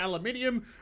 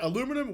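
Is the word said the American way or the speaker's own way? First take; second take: speaker's own; American. First: It is said the speaker's way, five syllables. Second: It is said the American way, four syllables.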